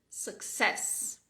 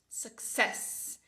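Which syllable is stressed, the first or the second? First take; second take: second; second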